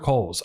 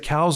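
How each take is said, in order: First: The vowel sounds like the one in 'coal'. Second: The vowel sounds like the one in 'cow'. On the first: "But I hear everybody going Coles" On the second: "I pronounce it Cowles because of how it's spelled"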